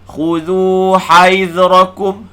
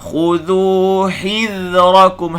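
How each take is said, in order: First: The syllable after 'h' sounds like 'hai'. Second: The syllable after 'h' sounds like 'hi'. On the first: The speaker calls it wrong. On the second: The speaker calls it right.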